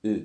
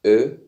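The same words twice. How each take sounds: First: "أو" as a tight rounded ü; Turkish ü for contrast. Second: "أ" as a loud, open rounded ö; Turkish ö for contrast. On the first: Teacher compares two letters for students, tight rounded ü. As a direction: say "أو" as ü, ee through rounded lips. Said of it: "أو ده أو". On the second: Teacher compares two letters for students, loud rounded ö. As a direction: punch out "أ" as ö, eh through rounded lips. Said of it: "بصوا". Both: Shown as a demonstration.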